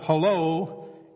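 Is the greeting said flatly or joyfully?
flatly. It is said in a plain, flat way.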